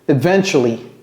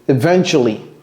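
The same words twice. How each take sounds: No difference in how they are said.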